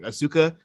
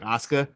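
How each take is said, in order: First: The name is said with American-sounding vowels and stress. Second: The name is said with Japanese-sounding vowels and stress. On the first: The speaker calls it wrong. "from like my mind to saying Asuka" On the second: The speaker calls it right. "to just saying Asuka"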